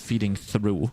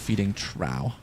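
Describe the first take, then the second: First: The last word rhymes with 'blue'. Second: The last word rhymes with 'off'. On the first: The speaker calls it wrong. "I always thought it's called the feeding through" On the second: The speaker calls it right. "but it's actually the feeding trough"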